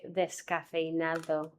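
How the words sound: Every sound, including the s, is fully pronounced. "normally I say descafeinado"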